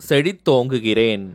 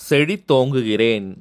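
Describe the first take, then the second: No difference in how they are said.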